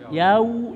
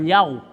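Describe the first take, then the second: First: The final vowel sounds like u. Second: The final vowel sounds like o. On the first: The speaker calls it right. "tapi yau suara u" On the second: The speaker calls it wrong. "jangan yau. Nah, eta mah ora o"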